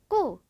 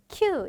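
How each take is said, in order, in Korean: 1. 첫 자음은 된소리예요. 숨이 나오지 않아요. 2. 첫 자음은 거센소리예요. 숨이 나와요. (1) "얘 같은 경우에는 꾸 이런 식으로" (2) "큐 이런 뭔가 ... 이런 느낌이 아니라"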